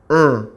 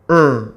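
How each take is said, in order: First: The vowel is said with air through the nose. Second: The vowel is said with air through the nose.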